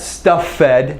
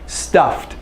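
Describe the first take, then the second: First: The ending is a separate syllable, 'fed'. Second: The ending joins the word, making one syllable. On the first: The speaker calls it wrong. "this is not stuff fed. No, no, no" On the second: The speaker calls it right.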